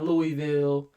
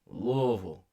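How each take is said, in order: First: The name is said in a forced, overdone way. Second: The name is said in a relaxed, flowing way. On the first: The speaker calls it wrong. "Not Louisville, ... Not gonna overdo it" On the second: The speaker calls it right. "Don't force it. Just let it... Let it flow"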